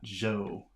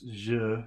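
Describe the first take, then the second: First: The vowel is an 'oh'-like sound. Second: The vowel is a mid 'uh'-like sound. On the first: The speaker calls it wrong. "not jo" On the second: The speaker calls it right. "So it's je"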